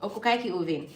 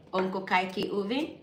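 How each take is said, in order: First: "Onko kaikki hyvin" without a questioning rise; no intonation. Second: "Onko kaikki hyvin" with a rise at the end; questioning intonation. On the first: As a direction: let "hyvin" fall at the end. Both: Shown as a demonstration. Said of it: "In Finland, we don't have intonation".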